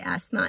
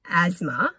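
First: The middle consonant is a hissing s sound. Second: The middle consonant is a buzzing z sound. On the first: The speaker calls it right. "it's not A-Z, it's A-S. But I say asthma" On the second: The speaker calls it wrong. "A lot of people I know say asthma as in A-Z"

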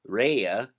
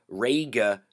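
First: The middle consonant is a y sound. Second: The middle consonant is a hard g sound. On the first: The speaker calls it right. "so it makes a Y sound" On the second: The speaker calls it wrong. "it's not Dawga, Raga"

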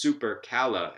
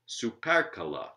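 First: The stress falls on the first and third syllables. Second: The stress falls on the second and fourth syllables. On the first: The speaker calls it right. "the first syllable, su, and every other syllable following it ... are strong" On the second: The speaker calls it wrong. "not supercala"

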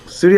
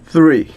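First: The word begins with a hard s sound. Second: The word begins with a soft th sound. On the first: The speaker calls it wrong. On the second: The speaker calls it right.

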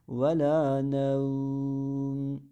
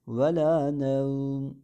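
First: The vowel before the final m is held medium. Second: The vowel before the final m is held short. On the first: "Tevessut yapabilirsiniz. ... Biraz daha kısa uzatırız" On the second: "Ancak kasır da yapabiliriz"

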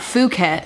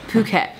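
First: The word begins with an f sound. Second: The word begins with a p sound. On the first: The speaker calls it wrong. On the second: The speaker calls it right. "that's how you say it"

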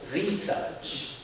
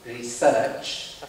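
First: It has the American stress pattern. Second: It has the classical English stress pattern. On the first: "The pronunciation has put the emphasis on research... from the other side of the Atlantic pond" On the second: "which I'm pronouncing in the typical classical English way of saying it, with the stress upon research"

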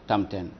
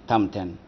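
The two takes are said the same way.

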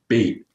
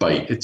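First: The vowel sounds like the one in 'bait'. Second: The vowel sounds like the one in 'bite'. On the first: The speaker calls it wrong. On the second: The speaker calls it right.

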